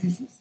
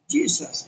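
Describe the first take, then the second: First: The name is pronounced the Spanish way. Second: The name is pronounced the English way. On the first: "no se parece Jesus a Jesús en la fonética" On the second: "En inglés se escribe lo mismo Jesús, pero se dice"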